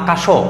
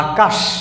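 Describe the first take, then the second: First: The word ends with an added final vowel. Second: The word ends on a closed consonant sound. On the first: The speaker calls it wrong. "আমরা তো কখনো বলি না আকাশও" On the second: The speaker calls it right. "আমরা বলি আকাশ"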